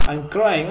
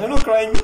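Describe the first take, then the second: First: Said in the usual way. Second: Higher, louder protest; defensive raised voice; indignant denial. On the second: Real, not acted. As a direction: deny it firmly, voice jumping up. Denies what game text says.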